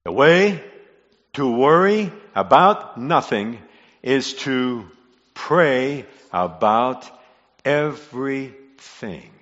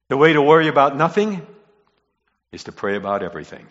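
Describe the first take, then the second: First: Word by word with deliberate pauses; slow, spaced emphasis. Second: Brisk statement. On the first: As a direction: spell it out slowly, phrase by phrase. Repeats key line word by word. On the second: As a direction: state it briskly, falling away at the end. States key line, then repeats it. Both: Real, not acted.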